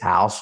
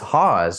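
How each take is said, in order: First: The name sounds like the word 'house'. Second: The name does not sound like 'house'. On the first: This is a common mispronunciation of the name. The speaker calls it wrong. "so many people mispronounce it and they say it's House" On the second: This is the correct pronunciation of the name. The speaker calls it right. "So it's Haas"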